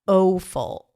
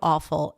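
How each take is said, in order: First: The first vowel glides like 'ow' in now. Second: The first vowel is one steady 'ah' sound. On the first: The speaker calls it wrong. "It's not awful" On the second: The speaker calls it right. "It's audio, awful"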